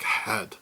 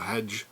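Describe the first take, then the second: First: The word ends in a plain 'd' sound. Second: The word ends in a soft 'j' sound. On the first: The speaker calls it right. "but it's more like head" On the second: The speaker calls it wrong. "maybe it's Anglified"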